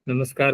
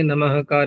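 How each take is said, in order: First: An s sound comes before 'kar'. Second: An h-like breath comes before 'kar'. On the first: The speaker calls it right. "नमस्कार में सकार ही तो बोलते हैं" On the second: The speaker calls it wrong. "नमःकार ऐसे नहीं बोलते उसको"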